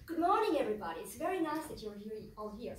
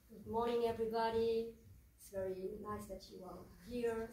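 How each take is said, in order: First: It is said faster, with more excitement. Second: It is said calmly, with little energy.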